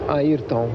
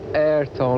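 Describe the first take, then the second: First: The name is said with native pronunciation. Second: The name is said with English-style pronunciation. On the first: This is the name's correct form. The speaker calls it right. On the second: This is how foreigners usually say it. The speaker calls it wrong. "it's not Ayrton like all Americans or English people used to say"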